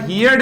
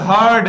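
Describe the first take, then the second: First: The vowel sounds like in 'here'. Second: The vowel sounds like in 'her'. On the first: The speaker calls it wrong. "हियर्ड नहीं होता मित्रों" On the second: The speaker calls it right. "H E A R D आता है"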